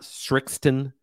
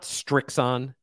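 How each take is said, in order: First: A t sound comes before the final -on. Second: A t sound follows the first s. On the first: "It's not Srixton" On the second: "There's no T in there. It's not Strixon"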